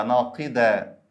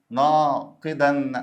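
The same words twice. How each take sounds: First: ناقدا said slowly, ending in an open long "-aa"; no final n. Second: ناقدا stretched very slowly, ending in a held "-an"; final n sound. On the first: Teacher offering the dual in idafa, ناقدا ending on open long aa. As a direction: say ناقدا as "naaqidaa", dropping the n. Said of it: "لا، يبقى ناقدة". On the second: Teacher offering students a choice, ناقدا drawn out with a final n. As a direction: say ناقدا as "naaa-qidannn". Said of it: "دي منصوبة في تنوين". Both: Shown as a demonstration.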